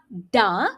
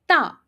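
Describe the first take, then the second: First: It begins with a voiced d-like sound. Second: It begins with a voiceless t-like sound. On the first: The speaker calls it wrong. "It's not da" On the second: The speaker calls it right. "The correct pronunciation is ta"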